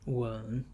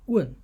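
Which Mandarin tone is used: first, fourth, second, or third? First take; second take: third; fourth. First: The syllable is said with the third tone. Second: The syllable is said with the fourth tone.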